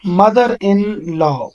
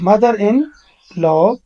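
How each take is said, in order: First: Very slow, almost whispered; slow careful reading. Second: Said in the usual way. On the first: Shown as a demonstration. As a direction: spell out mother in law slowly. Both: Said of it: "آپ دیکھیں ذرا غور سے".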